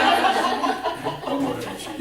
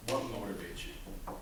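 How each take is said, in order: First: Laughing. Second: Slow and soft, letting it sink in; slow question. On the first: Repeats question laughing. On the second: Speaker asks audience slowly and quietly. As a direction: ask it slowly to make them think. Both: Shown as a demonstration.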